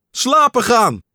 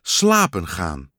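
First: High, loud startled shout of slapen gaan; loud high cry of slapen gaan. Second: Slapen gaan said low and slow, spelled out while writing; drawn-out low slapen gaan as if writing each letter; slow low dictation of slapen gaan; slowly writing it. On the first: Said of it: "schreeuwde Pat". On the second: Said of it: "schreef met een stok". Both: A narrator's reading.

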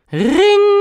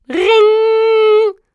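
First: High, loud "riiiing" held very long; more insistent doorbell imitation. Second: High, loud drawn-out "riiing"; doorbell ring imitation. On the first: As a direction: hold the doorbell's ring on one piercing note. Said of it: "klonk nog dwingender dan de eerste keer". (dwingend, lang aangehouden hoog belgeluid) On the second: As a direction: imitate an insistent doorbell on one high note. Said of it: "De deurbel". (luid, hoog nagedaan deurbelgerinkel) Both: A narrator's reading.

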